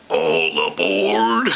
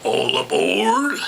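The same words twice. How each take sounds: First: Low conductor call. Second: High conductor call. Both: Acted. Train conductor calling out.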